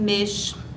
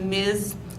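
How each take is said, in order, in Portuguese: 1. A consoante final é um chiado, como em chá. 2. A consoante final é um z sonoro. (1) "como os carioca" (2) "outros dizem mês"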